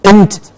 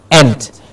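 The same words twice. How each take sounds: First: "int" with a small weak vowel before NT; "int" like an unstressed word ending; reduced vowel. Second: "ent" with a clear open E; "ent" as a stressed ENT; full E vowel. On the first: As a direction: shrink the vowel of "int" to a schwa. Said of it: "E N T at the end gives you". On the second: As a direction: sound out the vowel of "ent" fully. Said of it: "at the end and not ent". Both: Shown as a demonstration.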